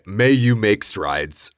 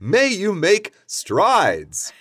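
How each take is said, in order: First: It is said in a flat, unexcited way. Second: It is said in a lively, enthusiastic way.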